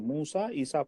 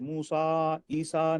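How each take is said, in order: First: The final vowels are short. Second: The final vowels are long. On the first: The speaker calls it right. "मूसा ईसा पढ़ेंगे" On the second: The speaker calls it wrong. "इसे मूसा ईसा नहीं पढ़ेंगे"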